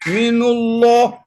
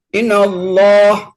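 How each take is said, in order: First: The word min ends with a u vowel. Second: The word min ends with an a vowel. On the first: The speaker calls it wrong. "Minullah atau minillah berat juga" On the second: The speaker calls it right. "semuanya itu patah"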